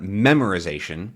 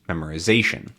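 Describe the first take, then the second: First: The main stress falls away from the 'za' syllable. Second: The main stress falls on the 'za' syllable. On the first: The speaker calls it wrong. "It's not memorization" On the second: The speaker calls it right. "memorization is zation"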